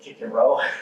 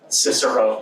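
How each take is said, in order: First: The name begins with a hard K sound. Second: The name begins with a soft S sound.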